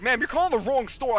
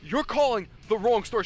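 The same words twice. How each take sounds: First: Raised, louder and higher correction; retold yell. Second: Moderately raised, higher-pitched yell; retold yell. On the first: Store worker to a wrong-number customer, retold yell. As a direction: firmly correct an upset caller, voice up. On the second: Store worker re-enacting yelling at a customer, raised voice. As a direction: re-enact yelling at a caller, not full force. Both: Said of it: "I actually yelled at her".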